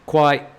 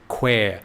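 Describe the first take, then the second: First: The word rhymes with the word why. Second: The word rhymes with the word square. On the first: It sounds like a Thai insult meaning water buffalo. The speaker calls it wrong. "which is pronounced and rhymes with Y" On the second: It is the name the locals use. The speaker calls it right. "to rhyme with the word square and where"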